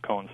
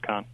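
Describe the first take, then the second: First: The vowel is an oh sound. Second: The vowel is an ah sound. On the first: This is the usual pronunciation of the spelling. "K-O-H-N normally is pronounced Cohn" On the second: This is the family's changed pronunciation. "But now I pronounce it Kahn"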